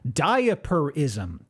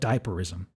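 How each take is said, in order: First: The word is said slowly and carefully enunciated. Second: The word is said quickly and runs together. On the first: The speaker calls it right. "I am enunciating this slowly" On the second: The speaker calls it wrong. "if I say it too fast"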